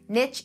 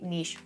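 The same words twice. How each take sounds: First: It is said in the American way. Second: It is said in a non-American way.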